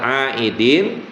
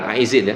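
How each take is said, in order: First: The middle consonant is a d sound. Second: The middle consonant is a z sound. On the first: The speaker calls it right. "minal aidin" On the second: The speaker calls it wrong. "bukan aizin ya"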